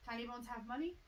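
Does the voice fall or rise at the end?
rise. The voice rises at the end. It is a question. The speaker calls it right. "Gotta get the inflection in"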